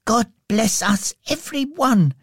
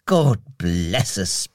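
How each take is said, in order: First: Put-on very high little-boy voice; Tiny Tim. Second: Slow, low blessing from a father; beaming Bob. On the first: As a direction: bless everyone in a small, high child's voice. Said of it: "concluded Tim". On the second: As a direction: beam contentedly, low and unhurried. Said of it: "beamed Bob". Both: A narrator's reading.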